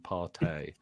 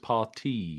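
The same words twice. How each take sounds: First: The name does not sound like party. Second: The name sounds like the word party. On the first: The speaker calls it wrong. "rather than Partey" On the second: The speaker calls it right. "apparently it's Partey"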